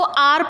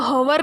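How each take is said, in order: First: The word starts with a vowel, no h sound. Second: The word starts with a clear h sound. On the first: The speaker calls it right. "इसको आर पढ़ते" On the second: The speaker calls it wrong. "इसको हवर नहीं पढ़ते"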